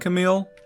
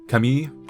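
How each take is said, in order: First: The name is said with an American English pronunciation. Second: The name is said with a French pronunciation. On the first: The speaker calls it wrong. "the American English way of saying Camille" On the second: The speaker calls it right. "the French, where it's more like Camille"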